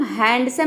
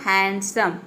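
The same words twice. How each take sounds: First: हैंडसम said as hand-some with the d sounded clearly; wrong pronunciation. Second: हैंडसम said as hansom with the d silent; correct pronunciation. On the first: Teacher shows students the wrong way, d sounded. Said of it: "इसको हम हैंडसम नहीं pronounce करेंगे". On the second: Teacher shows students the right way, silent d. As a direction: drop the d in हैंडसम and say hen-sum. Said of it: "तो यहाँ पे हो जाएगा". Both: Shown as a demonstration.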